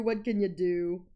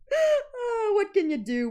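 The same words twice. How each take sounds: First: Said in the usual way. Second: High, laughing what can you do; laughing shrug. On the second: Real, not acted. Laughing shrug at own sneezes.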